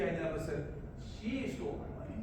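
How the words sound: The word she is stressed. Somebody else stole it. "if you I stress on she"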